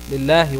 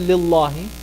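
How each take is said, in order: First: The L of Allah sounds light and thin. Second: The L of Allah sounds heavy and full. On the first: The speaker calls it right. "Because you have the kasra right there" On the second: The speaker calls it wrong. "You don't say"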